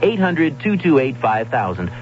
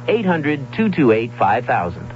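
No difference in how they are said.

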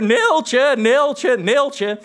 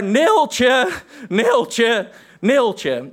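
First: High, loud call that fades off; shouting Neeltje. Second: Toned-down theatrical bellow, high; calling out Neeltje. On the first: Two friends shouting the scene on bikes at night, loud. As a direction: bellow the name across the empty lot. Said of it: "harder en harder". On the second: Actor bellowing the name across the stage, toned down. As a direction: call the name out, fading each time. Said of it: "veel harder dan ik het nu hier zal nadoen". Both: Retold or imitated.

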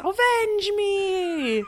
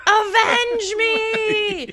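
First: Laughing mock scream. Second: High, slow, hammed-up scream; screamed dying plea. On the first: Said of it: "It was". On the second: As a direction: bellow it like a dramatic death scene. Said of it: "he screams".

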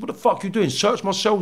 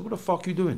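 First: Retold angry demand, pitched up; acted-out indignant repeat; indignant challenge. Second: Quiet, higher-pitched challenge; hushed, indignant question. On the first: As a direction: confront the snooping guard in a higher voice. Retold confrontation, repeated more forcefully. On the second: Retold or imitated. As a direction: softly confront someone caught snooping. Retold confrontation, first asking.

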